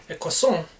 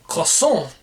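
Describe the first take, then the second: First: Croissant said again as kɔsɑ; croissant, French ending once more; repeated French croissant. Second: Croissant said kʰɔsɑ, French style; croissant with a nasal French ending. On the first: Repeating the word for viewers, French style. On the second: Telling viewers how he names the croissant, French style. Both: Shown as a demonstration. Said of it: "the fact that I call it a".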